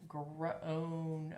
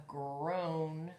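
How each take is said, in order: The two takes are said the same way.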